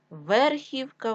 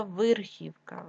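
First: Said in the usual way. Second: Верхівка said as вирхівка; short i after В in верхівка; и in first syllable. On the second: Shown as a demonstration. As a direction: make верхівка start with вир. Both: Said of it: "тому що верх".

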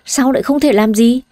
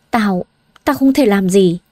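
First: Giọng cao lên, nhấn "thể", lên giọng cuối câu; vặn lại bạn đầy bức xúc; bất bình hỏi vặn. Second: Giọng chùng xuống, ngập ngừng, buồn bã; nói lí nhí như người bất lực; thiểu não. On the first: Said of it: "cô cau mày với Hà". (hỏi vặn đầy bất bình) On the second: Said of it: "Hà thiểu não nói". (buồn bã ngập ngừng) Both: A narrator's reading.

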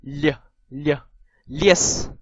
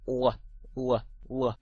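First: L as a palatalized "lye"; soft L. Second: U啊 as a hard l from the back of the tongue; three spaced hollow dark l sounds for U啊. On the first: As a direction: say L and Lies with tongue forward and a y-glide. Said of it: "軟音就唔會有以上". (軟音L，加耶音讀Lies) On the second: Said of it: "所謂嘅dark L就係呢個". (用脷後邊讀硬音L) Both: Shown as a demonstration.

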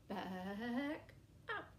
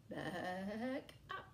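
Both takes have the same delivery.

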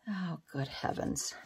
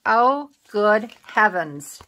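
First: Soft, under-the-breath "Oh, good heavens"; quiet self-directed sigh of words; muttered to herself. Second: Drawn-out flustered exclaim; slow exclamation. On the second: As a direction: stretch out "Oh, good heavens" in slow dismay. Exclaiming at a crafting mishap. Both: Real, not acted.

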